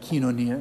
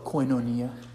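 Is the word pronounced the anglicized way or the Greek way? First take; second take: Greek; anglicized. First: The word has a Greek-style pronunciation. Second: The word has a common anglicized pronunciation. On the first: This is how it is said in the original language. The speaker calls it right. "It's actually kinonia in Greek" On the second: This is how people commonly say it. The speaker calls it wrong. "You hear people use the word, they call it koinonia"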